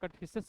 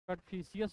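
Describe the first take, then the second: First: The name ends with a shorter 'fishus'. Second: The name ends with a drawn-out 'fishius'. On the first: "या कटफिशस बोलते हैं" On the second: "कटफिशियस बोलते हैं"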